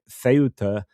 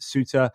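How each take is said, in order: First: A Spanish pronunciation starting with a 'th' sound. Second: An English-style pronunciation, sounding like 'Suter'. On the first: "Spanish call it Ceuta um, if they are from sort of most of Spain" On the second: "the British would call it Suter"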